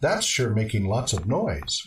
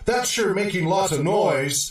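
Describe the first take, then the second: First: The tone sounds neutral and accepting. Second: The tone sounds annoyed and complaining. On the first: The speaker simply notes that the noise is happening. The speaker calls it right. "it's just supporting statement that it's happening. It's not passing judgment" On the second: The speaker is bothered by the noise. The speaker calls it wrong. "that does sound like a complaint"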